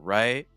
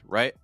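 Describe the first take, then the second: First: The vowel is long and full. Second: The vowel is short and weak.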